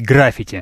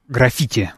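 First: The stress is on the first syllable. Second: The stress is on the second syllable. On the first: "я с детства привык говорить граффити" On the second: "вот таким образом, то есть на второй слог"

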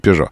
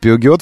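First: It is said in two syllables, 'pe-zho'. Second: It is said in three syllables, 'pi-u-giot'. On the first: The speaker calls it right. "все же Пежо" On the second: The speaker calls it wrong. "Нет, Пиугиот"

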